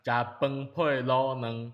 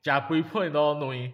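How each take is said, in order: First: It is said in a southern Taiwanese accent. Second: It is said in a Yilan accent.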